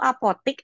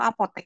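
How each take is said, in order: First: The last syllable has an i vowel. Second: The last syllable has an e vowel. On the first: The speaker calls it wrong. "yang masih menyebut apotik itu salah" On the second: The speaker calls it right. "Bahasa bakunya apotek"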